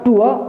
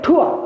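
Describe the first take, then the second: First: The word begins with a plain t sound. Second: The word begins with an aspirated t sound. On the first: "British English ... टी का उच्चारण ट की तरह ही होगा" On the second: "वो ट की जगह ठ उच्चारण करते हैं"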